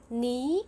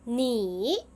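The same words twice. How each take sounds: First: It is said with the second tone. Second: It is said with the third tone. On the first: "the first 你 will become 你" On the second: "tone three"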